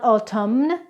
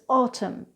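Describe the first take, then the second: First: The final N sound is pronounced. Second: The final N sound is silent. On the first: The speaker calls it wrong. "So it's not autumn" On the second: The speaker calls it right. "it's autumn"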